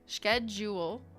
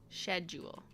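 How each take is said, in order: First: The word begins with a 'sk' sound. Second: The word begins with a 'sh' sound.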